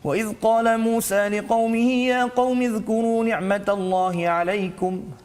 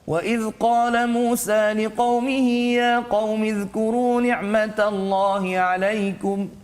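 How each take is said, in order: First: It is recited very quickly and rapidly. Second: It is recited at a medium, moderate speed. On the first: "bacaan yang paling laju pula dipanggil sebagai al-hadar" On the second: "dia taklah sangat laju, tak sangat perlahan"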